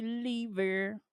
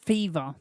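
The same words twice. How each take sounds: First: "Lever" said with an L, the wrong name; "Lever" with L instead of F; misread name. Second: "Fever" said with an F, putting it right; "Fever" with F, the right name; corrected name. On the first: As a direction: read it as "Lever" by mistake. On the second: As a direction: fix it to "Fever". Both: Shown as a demonstration. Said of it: "not Lever".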